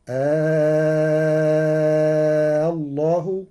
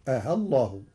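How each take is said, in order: First: آه stretched into a long loud vowel; long drawn آه. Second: آه said short, hamza eased between. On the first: Teacher demonstrates the drawn-out آه. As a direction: hold the آه very long. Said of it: "فيجوز فيه الإشباع". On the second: Teacher demonstrates the short eased آه. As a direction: clip the vowel of آه short. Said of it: "وتسهيله بين بين مع القصر". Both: Shown as a demonstration.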